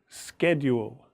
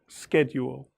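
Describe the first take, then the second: First: The word is said in an American accent. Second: The same.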